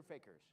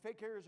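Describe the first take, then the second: First: "fakers" said FAY-kers; pronunciation variant. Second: "fakirs" said fay-KEERS; pronunciation variant. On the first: Magician puzzling over a word, "fakers" as FAY-kers. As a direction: stress the first syllable of "fakers". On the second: Magician puzzling over a word, "fakirs" as fay-KEERS. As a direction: say "fakirs" with a long second syllable, KEERS. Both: Shown as a demonstration. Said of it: "I put the emphasis on the wrong syllable".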